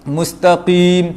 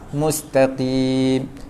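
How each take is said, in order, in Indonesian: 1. Bunyi q sangat tebal dan berat. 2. Bunyi q sedikit diringankan ke arah k. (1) "tebal sangat" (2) "Dia macam nak huruf kaf, sikit je"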